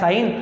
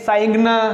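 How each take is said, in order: First: No g sound is pronounced before the n. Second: A g sound is pronounced before the n. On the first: The speaker calls it right. "जीएन को पढ़ते नहीं है" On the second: The speaker calls it wrong. "ये ऐसा लिखा हुआ नहीं है"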